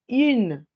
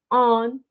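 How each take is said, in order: First: IN drawn out as French "une"; denasalized vowel. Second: ON as a single French nasal vowel; nasalized vowel. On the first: Teacher showing how feminine is heard, slow denasalized IN. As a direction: stretch IN with rounded u and released N. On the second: Teacher contrasting what not to say, nasalized ON. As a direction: hold ON in the nose, like French "un". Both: Shown as a demonstration. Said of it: "es quitándole la nasalización".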